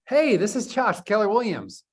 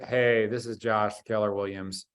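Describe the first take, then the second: First: The voice sounds very lively and high in energy. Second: The voice sounds flat and low in energy. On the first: The listener stays on the phone. The speaker calls it right. "That sounds great. High energy" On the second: The listener hangs up. The speaker calls it wrong. "click, right?"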